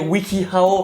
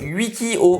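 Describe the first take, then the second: First: The name is said with English-style pronunciation. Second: The name is said with French-style pronunciation. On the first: The speaker poses as a trendy, pretentious person. "je me mets dans la peau de quelqu'un qui mange sans gluten et qui regarde toutes ses séries en V O" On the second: The speaker talks like an ordinary French speaker. "ou alors je le prononce Wikio"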